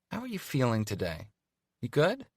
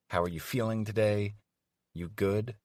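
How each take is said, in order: First: Sugary fake concern, You good rising high; mock concern. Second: Said in the usual way. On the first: Evie needling Carter with fake concern. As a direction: feign sweet worry. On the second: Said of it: "And then I get it".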